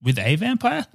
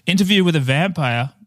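First: With a vampire rising like a question; puzzled rise on vampire. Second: Interview stressed, with a vampire flat. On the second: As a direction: lean on Interview. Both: Shown as a demonstration. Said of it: "this discredits the whole fucking statement".

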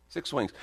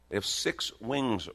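First: Six wings punched high, WINGS falling; emphatic repeat. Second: Said in the usual way. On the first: Shown as a demonstration. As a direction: lift and hit Six wings.

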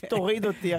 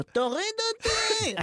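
First: Said in the usual way. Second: High, drawn-out mock scream; retold panicked scream. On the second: Passenger filmed in the plane begging out, mock high scream. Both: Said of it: "רק צועק".

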